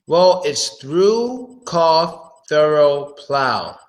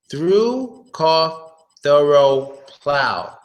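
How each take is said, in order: First: "through" stretched out, pitched up; teacher modelling "through, cough, thorough, plow"; slow word list demo. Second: "Through" pitched up, then "cough, thorough, plow" falling; teacher modelling "Through, cough, thorough, plow"; word list demo. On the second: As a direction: read the list at normal pace. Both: Shown as a demonstration. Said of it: "English pronunciation drill".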